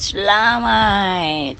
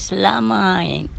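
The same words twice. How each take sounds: First: "Selamat" dragged very slowly, falling at the end; grudging selamat. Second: "Selamat" drawn out slowly, falling; slow flat selamat. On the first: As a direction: draw "Selamat" out slow and grudging. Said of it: "Kalau bunyi macam ragat". ("Selamat" dengan nada meleret dan acuh tak acuh) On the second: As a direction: stretch "Selamat" slow and level. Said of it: "Tetapi bunyi dia macam mana?". ("Selamat" disebut perlahan dan meleret) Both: Shown as a demonstration.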